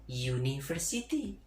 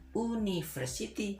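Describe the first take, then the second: First: The word begins with a y sound. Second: The word begins with a plain vowel sound. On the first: The speaker calls it right. "dibaca dengan pronunciation university" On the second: The speaker calls it wrong. "bukan university"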